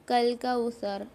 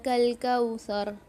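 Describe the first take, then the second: Both takes have the same delivery.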